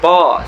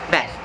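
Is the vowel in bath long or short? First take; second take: long; short. First: The vowel is long and open. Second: The vowel is short and clipped. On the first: "British English tends to sound more like heavy vowel" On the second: "American English sounds more clipped and direct"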